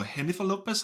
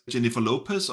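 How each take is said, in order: First: Jennifer said with an H sound, "Hennifer"; alternative pronunciation. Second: Said in the usual way. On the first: Shown as a demonstration. Reviewer unsure how to pronounce the actress's name, trying Jennifer with an H. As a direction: say "Jennifer" starting with a breathy H instead of J. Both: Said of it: "how do you pronounce it".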